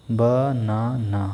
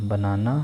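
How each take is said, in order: First: बनाना slowly, each syllable separate. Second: Said in the usual way. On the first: Shown as a demonstration. Teacher modelling syllable claps for the class, slow and separated. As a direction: clap out बनाना, one beat per syllable. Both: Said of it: "clapping for each syllable".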